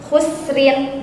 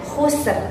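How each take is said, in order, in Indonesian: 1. Kata ini berakhir dengan bunyi -in. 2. Kata ini berakhir dengan konsonan mati.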